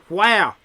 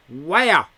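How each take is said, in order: Both takes have the same delivery.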